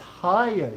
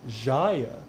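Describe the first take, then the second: First: The name begins with an H sound. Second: The name begins with a J sound. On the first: The speaker calls it right. "The J is pronounced like an H" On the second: The speaker calls it wrong. "have I been saying your name incorrectly the entire time?"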